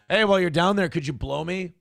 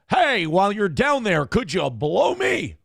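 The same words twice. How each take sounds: First: It is said in an ordinary casual voice. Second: It is said in a polished radio-announcer voice. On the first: "if he would have been like" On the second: "they're always doing radio voice"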